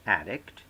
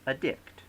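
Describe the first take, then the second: First: "addict" stressed on the first syllable; noun stress. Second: "addict" stressed on the second syllable; verb stress. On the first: Lecturer showing stress shift to students, noun AD-dict. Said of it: "from noun to verb". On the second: Lecturer showing stress shift to students, verb ad-DICT. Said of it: "often change accent". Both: Shown as a demonstration.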